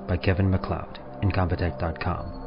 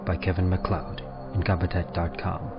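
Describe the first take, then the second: No difference in how they are said.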